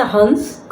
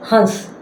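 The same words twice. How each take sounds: First: हंस with a clear nasal n sound before the s; nasal anusvara. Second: हंस with the vowel nasalised, air through nose and mouth. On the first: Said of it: "इसका उच्चारण नाक से होता है". (हंस में अनुस्वार का नाक से उच्चारण) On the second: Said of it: "नाक और मुंह दोनों से हवा निकलती है". (हंस में नाक और मुंह दोनों से अनुनासिक स्वर) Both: Shown as a demonstration.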